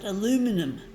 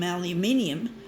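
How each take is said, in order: First: The word is said in an American way. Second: The word is said in an Australian way. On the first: "the Americans call it aluminum" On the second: "Like the Australians, we call aluminium aluminium"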